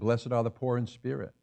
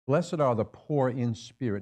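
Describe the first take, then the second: First: The phrase is read at a normal pace. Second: The phrase is read at a slow pace.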